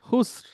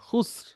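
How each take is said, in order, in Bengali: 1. শব্দটি একটি খালি r ধ্বনি দিয়ে শেষ হয়। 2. শব্দটি একটি খালি r ধ্বনি দিয়ে শেষ হয়।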